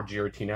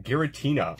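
First: Giratina with a soft G, like a J; "Giratina" as Jeer-a-tina; soft G pronunciation. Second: Giratina with a hard G, as in "get"; "Giratina" as Gheer-a-tina; hard G pronunciation. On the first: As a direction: say "Giratina" starting with a J sound. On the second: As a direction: say "Giratina" starting with a hard G sound. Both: Shown as a demonstration. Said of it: "however you wanna say it".

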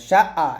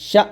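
First: শা আ with the vowel stretched smoothly, no jolt; wrong drawn-out reading. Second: শা cut short on an abrupt glottal stop; read with a jolt. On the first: Teacher showing what not to do, শা আ stretched out. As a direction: let শা trail into a long আ. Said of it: "এরকম না". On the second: Teacher showing the right way, শা with a sudden jolt. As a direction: push শা out and stop it sharply. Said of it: "ধাক্কা দিয়ে পড়বো". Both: Shown as a demonstration.

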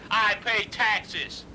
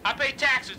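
First: "I pay taxes" dragged out very slowly, each word weighted; slow emphatic repeat. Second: Said in the usual way. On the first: Acted. Caller repeating to the manager, slow and emphatic. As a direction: spell it out slowly to make the point.

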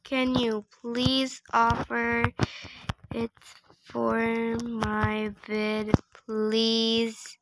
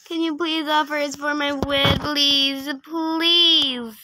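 First: Slow, word by word with gaps; slow dictation. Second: Pleading. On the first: Player typing a request to another trader, slow dictation. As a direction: sound it out as if typing. Sounding out a typed message. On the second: Player begging a trader to offer for the video, pleading. Repeats the request aloud, begging. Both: Real, not acted.

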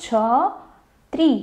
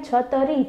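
First: છત્રી said slowly with the joined ત્ર; correct spelling. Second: છતરી read with a full ત and a separate રી; wrong spelling read. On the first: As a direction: say the right form છત્રી, drawn out. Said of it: "તો કઈ રીતના લખશું?". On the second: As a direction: sound out the misspelt છતરી as written. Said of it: "આપણે છત્રી એમ લખીએ છીએ નહીં". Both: Shown as a demonstration.

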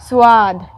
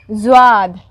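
First: स्वाद said as "swaad", low-pitched, with a voiceless S; S sound. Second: स्वाद said as "zwaad", low-pitched, with a buzzed Z; Z sound. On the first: Teacher naming an Urdu letter for learners, S at the start of स्वाद. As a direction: start स्वाद on a clean S and lengthen the vowel. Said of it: "जिसका pronunciation स होता है". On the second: Teacher naming the next Urdu letter, Z at the start of स्वाद. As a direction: start स्वाद on a voiced Z and lengthen the vowel. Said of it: "pronunciation ज". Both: Shown as a demonstration.

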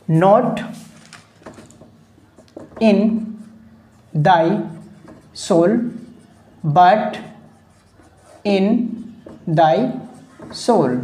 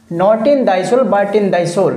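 First: Word by word, long pauses between words; dictation pace. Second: Said in the usual way. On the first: Shown as a demonstration. Teacher dictating a quoted line to students, word-by-word dictation. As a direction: dictate slowly for note-takers, one word at a time.

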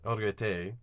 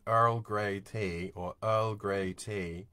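First: EARL GREY TEA run together to sound like "green tea"; slurred wrong stress. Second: EARL GREY TEA slowly, each word separate; broken-down words. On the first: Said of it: "it sounds like a green tea". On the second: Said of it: "you can really break it down". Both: Shown as a demonstration.

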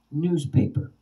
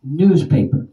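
First: "Newspaper" at normal level, NEWS stressed, the pitch falling after it; newspaper stress demo. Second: "Newspaper" said louder, the first syllable NEWS stressed and falling; newspaper stress demo. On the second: Teacher loudly models the word for the class, stress on NEWS. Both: Shown as a demonstration. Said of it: "Now the word newspaper".

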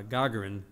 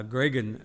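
First: Gagarin said carefully as "GAH-guh-rin", three clear syllables; corrected name. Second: Gagarin said as "GRAY-gun", syllables slurred together; fumbled name. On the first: Preacher correcting himself after spelling the name, careful Gagarin. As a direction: land Gagarin properly, stress on the first syllable. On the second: Preacher stumbling over the cosmonaut's name, mispronounced Gagarin. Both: Real, not acted. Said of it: "excuse me, G A G A R I N".

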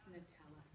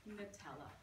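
First: Soft, low, savouring Nutella; hushed indulgence. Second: Said in the usual way. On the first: Acted. Poet sighing over her favourite treat, hushed and indulgent. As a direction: breathe the word Nutella like a guilty pleasure. Poem's indulgent repeated line.

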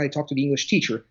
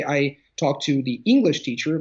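First: "English" left light, with a quick falling line; stress shifted off English. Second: "English" lifted and stressed, "teacher" light. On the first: Contrasting for the host, quick, "English" unstressed. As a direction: say it fast without leaning on "English". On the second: Teaching a podcast host about stress, hitting "English". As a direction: lean on the word "English". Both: Shown as a demonstration. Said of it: "two slightly different things".

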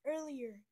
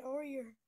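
First: "Earlier" said clearly as "ur-lee-er"; careful correction. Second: "earlier" said loosely as "or-ee-er", first syllable like "or"; quick mispronounced word. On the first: Correcting herself to her friends, clear "Earlier". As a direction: correct yourself: "Earlier", crisp "ur" start. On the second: Chatting with friends, first slurred "earlier". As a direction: rush "earlier" as "or-ee-er". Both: Shown as a demonstration.

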